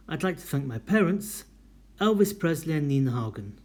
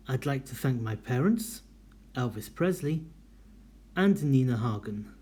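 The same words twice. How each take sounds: First: Parents then Elvis Presley and Nina Hagen run together; no pause before and. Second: Oxford comma pause. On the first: Teacher demonstrating a sentence without the Oxford comma. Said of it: "Listen to it". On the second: Teacher demonstrating the serial comma in a thank-you list. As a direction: separate all three with comma pauses. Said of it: "And number five". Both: Shown as a demonstration.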